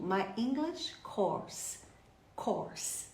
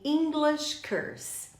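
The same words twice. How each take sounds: First: Slow, soft "course" with open aw; "course" drawn out with an open vowel; correct course pronunciation. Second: "English curse" with an er vowel where course belongs; slow mistaken "English curse", vowel as in her; common learner mistake. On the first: Shown as a demonstration. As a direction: model "My English course", vowel as in or. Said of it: "E como é que você fala". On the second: Retold or imitated. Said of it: "muita gente fala pra mim".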